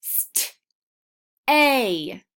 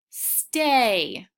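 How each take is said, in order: First: "St-" then "A" said as separate sounds. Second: "stay" blended smoothly; blended word. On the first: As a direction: break "stay" into "St-" and "A". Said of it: "Let's do the same thing with the word stay". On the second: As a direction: run "stay" together as one word. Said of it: "Now put it all together". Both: Shown as a demonstration.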